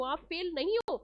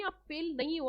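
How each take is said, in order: First: The word नहीं leaned on, आप left light; stress on नहीं. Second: The word आप leaned on, the rest lighter; stress on आप. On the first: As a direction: hit "नहीं" firmly. ("नहीं" पर ज़ोर) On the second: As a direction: push "आप" firmly. ("आप" पर ज़ोर) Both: Shown as a demonstration. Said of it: "मैं फिर से ये बात बोलूंगी".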